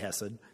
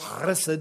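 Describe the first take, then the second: First: It starts with a plain, soft sound. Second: It starts with a harsh throaty sound. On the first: "you can just say chesed" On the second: "with the guttural chesed"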